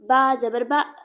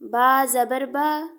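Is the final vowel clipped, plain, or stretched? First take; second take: clipped; plain. First: The vowel is cut off with an abrupt jolt. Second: The vowel is short and even, without stretching. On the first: The speaker calls it wrong. "ना झटका दे के पढ़ना है" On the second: The speaker calls it right. "यानी ऐसे पढ़ना है आपने।"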